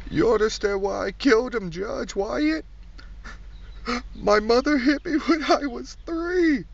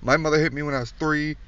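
First: High, slow pleading whine; whiny defendant. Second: Said in the usual way. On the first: Acted. Comic mimics a defendant pleading to the judge, high whine. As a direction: beg the judge like a sniveling criminal.

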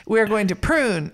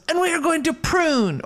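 First: Said in the usual way. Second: Very high mock Mexican accent; hammed-up Mexican-accented declaration; put-on Mexican accent. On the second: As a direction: play a movie bandito, pitch soaring, with a Mexican accent. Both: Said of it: "I need to stop doing an accent".

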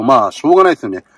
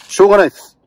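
First: Said in the usual way. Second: しょうがないです said louder and higher, firmly settled; emphatic. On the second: Real, not acted. Closing the leftovers talk, しょうがないです with a loud firm ending. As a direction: declare しょうがないです with a firm punch.

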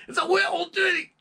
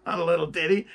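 First: "little ditty" said high as "wee-l tetty" in a Scottish accent; Scottish falsetto impression. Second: Said in the usual way. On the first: Shown as a demonstration. Correcting the plain take with a shrill Scottish "It's a little ditty".

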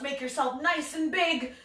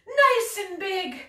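First: Said in the usual way. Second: "nice" lifted high and slow; stress on nice. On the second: Shown as a demonstration.

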